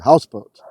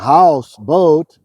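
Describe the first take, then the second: First: Only one part of the word is accented. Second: Both parts of the word are accented.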